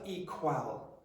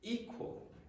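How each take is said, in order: First: Both syllables are equally strong and long. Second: The second syllable is short and quiet. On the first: The speaker calls it wrong. "It's not" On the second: The speaker calls it right. "this will be short and it's going to be quiet"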